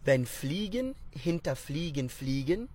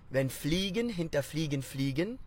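First: The phrase is spoken at a normal pace. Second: The phrase is spoken a little faster.

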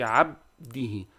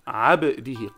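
First: The b is closed flat without a bounce. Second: The b is released with an echoing bounce. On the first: The speaker calls it wrong. "Don't say عبده. عبده is wrong" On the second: The speaker calls it right. "قلقلة"

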